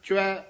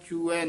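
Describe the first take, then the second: First: The word is said as one gliding syllable. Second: The word is split into two separate syllables. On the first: The speaker calls it right. "इसमें च्वै उच्चारण करना है" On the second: The speaker calls it wrong. "चूऐ नहीं कहना है।"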